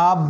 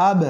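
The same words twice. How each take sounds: First: Said in the usual way. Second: আব with the "b" bounced into a tiny echo, "ab-e"; echoing double sound. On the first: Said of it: "না বলে আব". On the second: Shown as a demonstration. Teacher corrects the flat reading, bouncing echo on আব. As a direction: release the final "b" of আব with a push. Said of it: "একটু double sound হবে".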